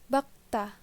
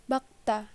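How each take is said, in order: The two takes are said the same way.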